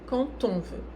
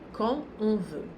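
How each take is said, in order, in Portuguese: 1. 'Quand' é ligado a 'on' por um T. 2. 'Quand' não é ligado a 'on' por um T. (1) "se eu optar por fazer a liaison, vai ser fazendo o som T" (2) "Eu posso dizer"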